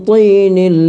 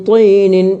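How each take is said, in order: No difference in how they are said.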